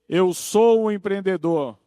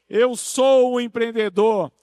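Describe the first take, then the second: First: It is said in a calmer, plainer way. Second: It is said with more enthusiasm and energy.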